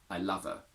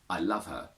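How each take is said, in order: First: The H sound at the start of her is dropped. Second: The H sound at the start of her is pronounced.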